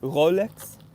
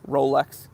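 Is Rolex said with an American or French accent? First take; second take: French; American. First: It is said with a French accent. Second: It is said with an American accent. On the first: "then I'm going to attempt to do it in French" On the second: "I'm going to read them in my American accent first"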